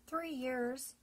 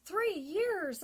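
First: Said in the usual way. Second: Louder astonished repeat. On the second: Retold or imitated. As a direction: echo it in shock. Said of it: "I said, astonished".

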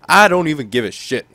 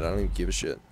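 First: Loud, higher, emphatic repeat; pissed off. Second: Low, soft throwaway; fed-up aside. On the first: Player fed up with his goalie Rene, pissed off. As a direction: push it out louder in open irritation. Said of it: "I'm pissed off with Rene". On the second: Player swapping goalies says it to himself, dismissive. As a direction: toss it off quietly, resigned. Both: Real, not acted.

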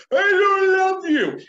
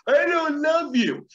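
First: Put-on high, loud, slow yelled child line; child shouting rejection at the teacher. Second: Put-on high, loud, slow child voice; sulky kid declaring it, slowly; child's hurtful words. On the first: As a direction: scream it like an angry kid. This child goes. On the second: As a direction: say it like a defiant little kid. Child rejecting the teacher.

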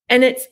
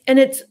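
Both takes have the same delivery.

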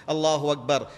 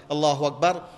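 No difference in how they are said.

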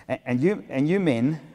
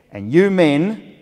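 First: Put-on toned-down consultant voice, no accent; lightly voiced instructor, slightly raised pitch; milder imitated consultant. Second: High, loud and slow address; put-on instructor voice, drawn out and emphatic; imitated lactation consultant. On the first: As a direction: restart the address with less force. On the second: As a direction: boom it out like a stern lecturer. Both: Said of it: "I, I won't do a German accent".

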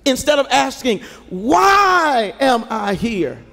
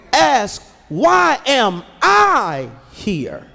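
First: "Why am I here?" slow, with "Why" leaned on hard; a grumbling "Why am I here?", weight on "Why"; stress on WHY. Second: "Why am I here?" slow, with "I" leaned on hard; a searching "Why am I here?", weight on "I"; stress on I. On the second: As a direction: ask it with the weight on "I". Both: Shown as a demonstration. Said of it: "change your emphasis".

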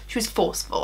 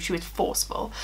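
First: Said in the usual way. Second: Forceful said softly and breathily, as a firm correction; quiet, pointed she was forceful; stress on forceful. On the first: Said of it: "I wouldn't say she was rude". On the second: Shown as a demonstration. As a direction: soften the voice and lean on forceful. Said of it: "I wouldn't say she was rude, she was forceful".

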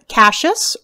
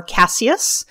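First: Cassius said as CASH-us; two-syllable pronunciation. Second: Cassius said as CASS-ee-us; alternative pronunciation. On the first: As some people say. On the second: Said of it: "as some people say". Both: Shown as a demonstration.

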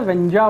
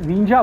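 First: "वेंजा" with an open e sound in the first syllable, "ven-ja"; wrong vowel. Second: "विंजा" with a short i sound, "win-ja"; corrected pronunciation. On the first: Gamer recalling how he misread the tribe name, says "वेंजा" with e. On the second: Gamer settling the tribe's real name, says "विंजा" with i. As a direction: land on "विंजा" with a clear i, "win-ja". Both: Shown as a demonstration. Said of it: "विंजा बोलते हैं".

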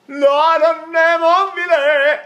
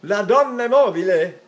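First: Sung, high, loud, sustained opera line; happy operatic singing. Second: Loud, lilting happy Italian line. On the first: Teacher singing as if happy, operatic singing. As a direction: sing it out big and happy. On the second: Teacher showing the aria if happy, happy speaking. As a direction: say it brightly and raised, almost sung. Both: Shown as a demonstration. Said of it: "What if I'm happy?".

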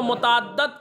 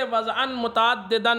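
First: متعدد said carefully as muta'addid, ending in -did; corrected pronunciation. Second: متعددا said as mutaddeda with an e sound; the slipped mutaddeda form of متعددا; slip in pronunciation. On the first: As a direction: correct it to muta'addid, stressing the final syllable. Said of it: "متعدد صحیح تلفظ ہے". (متعدد کا صحیح تلفظ، مُتَعَدِّد) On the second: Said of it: "متعدد کے بجائے متعدد صحیح تلفظ ہے". (متعددا کا غلط تلفظ، متعدّدہ) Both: Shown as a demonstration.

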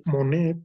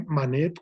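First: Monet said with a clear o sound, Mo-né; name spelled out. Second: Manet said with a clear a sound, Ma-né; name spelled out. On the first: Lecturer tells students, Monet with O. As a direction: stress the o in Monet, set against Manet. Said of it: "con O". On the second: Lecturer tells students, Manet with A. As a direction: stress the a in Manet, set against Monet. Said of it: "Manet con A". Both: Shown as a demonstration.

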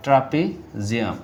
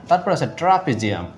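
First: trapezium repeated slowly, syllable by syllable; slow dictation. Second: Said in the usual way. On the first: Shown as a demonstration. Teacher repeats trapezium slowly for students writing notes. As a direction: spell out trapezium slowly so they can write it. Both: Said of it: "আপনারা এটা লিখে রাখতে পারেন".

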